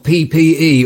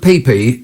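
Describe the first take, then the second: First: All three letters are said, ending with E. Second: Only two letters are said; the E is dropped.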